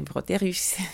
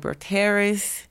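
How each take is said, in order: First: The name is said with a French pronunciation. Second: The name is said with an American pronunciation. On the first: "Les Français, c'est Broterus" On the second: "Les Américains disent Elina Broterus"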